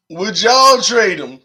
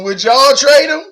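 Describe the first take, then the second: First: Slow, leaning on y'all, falling at the end; slow emphatic repeat. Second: Higher and louder, punch the word trade; excited question. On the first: Streamer pressing chat for an answer, slow and emphatic. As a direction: drag it out, stressing y'all. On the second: Streamer asking chat about the trade, high and loud. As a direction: call it out eagerly to the chat. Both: Real, not acted.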